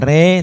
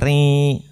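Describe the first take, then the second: First: The vowel sounds like e. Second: The vowel sounds close to i. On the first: The speaker calls it wrong. "bukan re" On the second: The speaker calls it right. "tapi ri, agak mendekati i"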